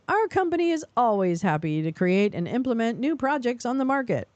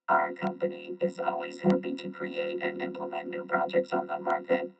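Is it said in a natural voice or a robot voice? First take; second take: natural; robot. First: It is said in a natural voice. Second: It is said in a robot voice.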